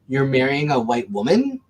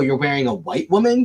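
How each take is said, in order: First: The stress falls on the word woman. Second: The stress falls on the word white. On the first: The surprise is that the partner is a woman. "the same sentence with two different inflections" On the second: "the same sentence with two different inflections"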